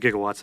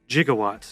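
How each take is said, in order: First: The word is pronounced the standard way. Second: The word is pronounced the movie's nonstandard way. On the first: The speaker calls it right. "it's actually gigawatts" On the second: The speaker calls it wrong. "They mispronounced it in the movie"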